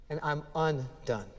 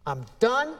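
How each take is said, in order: First: Lower, softer, falling I'm undone; humbled undone. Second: Higher, rising I'm done; self-sufficient done. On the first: Preacher contrasting undone with done, soft humbled fall. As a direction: let undone sink, humbled. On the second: Preacher contrasting done with undone, rising self-assured. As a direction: say done like a proud finish. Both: Shown as a demonstration. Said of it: "teaches Peter and us the difference between".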